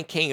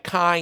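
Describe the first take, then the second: First: "Kane" said to rhyme with "lane"; alternative pronunciation. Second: "Kane" said to rhyme with "line"; alternative pronunciation. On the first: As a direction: say "Kane" with a long a, like "cane". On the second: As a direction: say "Kane" with a long i, like "kine". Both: Shown as a demonstration. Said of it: "however you say his name".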